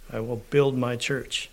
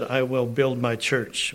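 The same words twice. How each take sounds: First: Said in the usual way. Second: Slow quote, "build" leaned on hard; "build" drawn out and weighted, the rest measured; stress on build. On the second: Shown as a demonstration. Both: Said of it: "We heard that".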